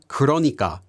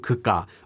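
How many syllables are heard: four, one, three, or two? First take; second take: four; two. First: It is said in full with four syllables. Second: It is shortened further to two syllables. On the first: "This is actually the word 그러니까" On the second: "can then be shortened more to"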